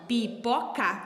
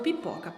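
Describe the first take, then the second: First: Pipoca split into three separate sounds; syllable by syllable. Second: Said in the usual way. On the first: Shown as a demonstration. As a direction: break pipoca into pi, po, ca. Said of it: "são três sonzinhos que eu vou ter que formar". (pipoca separada em três sonzinhos) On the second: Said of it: "a prof falou pipoca".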